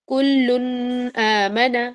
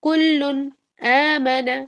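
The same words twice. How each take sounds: First: The n is nasalized and runs into the next word. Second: The n is clear, with the two words kept apart. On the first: The speaker calls it wrong. "ये गलत है" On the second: The speaker calls it right. "कुल्लुन को अलहदा, आमना को अलहदा"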